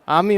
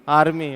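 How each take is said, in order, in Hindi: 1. स्वर के बाद r की आवाज़ गिरा दी जाती है। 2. स्वर के बाद r की आवाज़ बोली जाती है। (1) "आर्मी होता है" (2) "ना कि आर्मी होता है"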